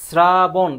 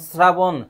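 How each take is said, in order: First: শ্রাবণ stretched loudly as "sraa-bon"; loud, two-part "sraa... bon" for শ্রাবণ; drawn-out S pronunciation. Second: শ্রাবণ opening on an S sound, "srabon"; loud, clear "srabon" for শ্রাবণ; hissed S pronunciation. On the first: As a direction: hold the first syllable of শ্রাবণ, starting on S. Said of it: "শ্রাবণ যখন উচ্চারণ করছে এখানে ছয়ের মতো". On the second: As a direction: say শ্রাবণ with S, not SH. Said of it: "ছয়ের মতো উচ্চারিত হয়". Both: Shown as a demonstration.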